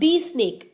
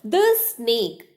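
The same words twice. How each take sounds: First: 'The' is said with a long 'thee' vowel. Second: 'The' is said with a short 'thuh' vowel. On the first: The speaker calls it wrong. "It is not the snake... It's wrong pronunciation" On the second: The speaker calls it right. "in front of a consonant sound, we are supposed to pronounce the word the as the"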